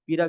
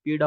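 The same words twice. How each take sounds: First: "पीड़ा" said with a plain r, as "peera"; misspelt form. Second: "पीड़ा" with a clear retroflex flap ड़; correct pronunciation. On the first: Teacher reads out the misspelt option, r for ड़. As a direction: flap lost in "पीड़ा", replaced by r. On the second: Teacher corrects the spelling for students, clear ड़ sound. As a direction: say "पीड़ा" as pee-ṛaa, tongue curled back. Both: Shown as a demonstration. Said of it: "शुद्ध वर्तनी पीड़ा".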